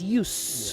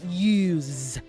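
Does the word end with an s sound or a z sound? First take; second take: s; z. First: The word ends with an s sound. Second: The word ends with a z sound. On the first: It names the act itself as a thing. "when you use it as a noun, it is use with the s" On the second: It names the action of using something. "When you use it as a verb, it is use with the z"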